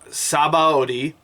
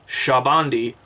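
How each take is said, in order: First: The name is said as its English spelling reads. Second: The name is said unlike its English spelling. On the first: The speaker calls it wrong. "like it's printed in English" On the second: The speaker calls it right. "I finally pronounced it right this time"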